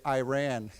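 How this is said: It is said with an American pronunciation. The speaker calls it wrong. "many Americans will say Iran"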